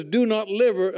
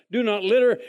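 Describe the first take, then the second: First: "liver-" said for "litter", cut off halfway; stumble, reading "litter" as "liver-"; misread word. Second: Said in the usual way. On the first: Real, not acted. Reading the trash can sign aloud, tripping on "liver-". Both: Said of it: "uh, do not litter".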